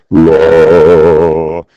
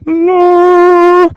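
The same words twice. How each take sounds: First: Loud, sustained low note; low pitch. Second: Loud, sustained high note; high-pitched. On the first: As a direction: hold one long, low "la". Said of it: "is a low pitch". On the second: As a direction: hold one long piercingly high "la". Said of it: "is a high-pitched noise". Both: Shown as a demonstration.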